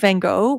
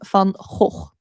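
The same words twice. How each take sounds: First: The name is said with an English pronunciation. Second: The name is said with a Dutch pronunciation. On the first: "that is the English pr- uh, pronunciation" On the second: "that is how you pronounce it in Dutch"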